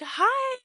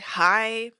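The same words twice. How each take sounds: First: It sounds happy and warm. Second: It sounds annoyed and cold.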